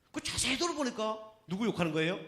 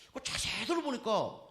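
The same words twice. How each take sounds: First: 들어보니까 stretched, then a rising 누구 욕하는 거예요; rising question. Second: 들어보니까 drawn out, falling at the end; slow, drawn-out 들어보니까 with a falling close; slow stress on 들어보니까. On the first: To the congregation, teasing a rising question. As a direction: question tune rising at the end. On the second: To the congregation, building suspense, slow falling 들어보니까. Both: Shown as a demonstration.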